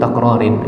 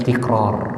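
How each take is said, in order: First: The first vowel is a, ending in -in. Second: The first vowel is i, with no ending. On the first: The speaker calls it wrong. "ini salah harokat ya" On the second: The speaker calls it right. "Yang benar adalah tikrar"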